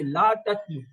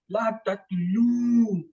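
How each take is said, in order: First: The final vowel is short. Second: The final vowel is long. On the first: It refers to one person. "it's singular" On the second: It refers to several people. "it means wow alif is added, sign of plural"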